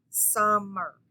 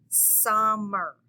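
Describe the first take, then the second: Both takes have the same delivery.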